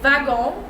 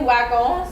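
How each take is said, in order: First: The word begins with a V sound. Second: The word begins with a W sound. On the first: This is the speaker's preferred way. "I've always been pronouncing it wagon because I feel like it sounds better" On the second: This is how some other people say it. "some people say wagon"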